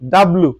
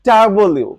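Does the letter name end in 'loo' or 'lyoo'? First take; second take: loo; lyoo. First: The name ends in a plain 'loo' sound. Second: The name ends in a 'lyoo' sound. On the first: The speaker calls it wrong. "আমরা সচরাচর এটাকে বলে থাকি ডাব্লু" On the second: The speaker calls it right. "এটার উচ্চারণ হচ্ছে কি ডাব্লিউ"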